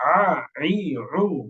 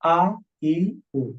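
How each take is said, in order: First: The vowels start with a squeezed, tight throat. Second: The vowels start plainly, with a relaxed throat. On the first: "আইনটা একটু গলা চাপ দিয়ে" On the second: "আ ই উ স্বাভাবিক"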